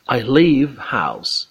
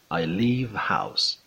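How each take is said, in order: First: "leave" with a long stretched ee, said slow and loud; teacher demo of "leave" with a long stretched ee. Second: Said in the usual way. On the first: Shown as a demonstration. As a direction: draw out the ee of "leave" clearly. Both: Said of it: "با صدای کشیدهٔ ای".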